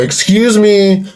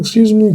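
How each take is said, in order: First: It is said in a rude, demanding way. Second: It is said in a soft, polite way. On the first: The speaker comes across as obnoxious. The speaker calls it wrong. "you kind of sound like a dickhead" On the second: The speaker is politely getting attention. The speaker calls it right. "you kind of just raise your hand. You're like, eh"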